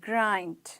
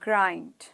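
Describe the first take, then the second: First: The vowel is a gliding eye sound. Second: The same.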